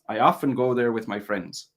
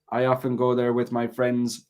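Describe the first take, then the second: First: The pitch moves up and down across the sentence. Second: The pitch stays level across the whole sentence. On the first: The speaker calls it right. "you can hear the intonation going up and down" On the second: The speaker calls it wrong. "what you have is"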